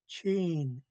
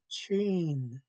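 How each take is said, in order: The two takes are said the same way.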